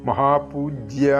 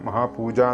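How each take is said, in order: First: The last syllable is a clear 'jya'. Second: The last syllable is a plain 'ja'. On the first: The speaker calls it right. "മഹാപൂജ്യ എന്ന് തന്നെ വരണം" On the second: The speaker calls it wrong. "മഹാപൂജ എന്നൊന്നും ചൊല്ലിപ്പോകരുത്"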